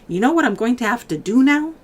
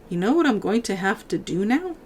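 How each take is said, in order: First: The line sounds strongly, exaggeratedly fierce. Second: The line sounds only mildly fierce.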